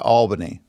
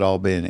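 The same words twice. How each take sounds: First: Albany the standard way, "AWL-buh-nee"; first syllable of Albany stressed, middle reduced; outsiders' pronunciation. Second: Albany the hometown way, "all-BENNY"; local pronunciation. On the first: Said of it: "other people would call it Albany". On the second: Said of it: "But we call it Albany". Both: Shown as a demonstration.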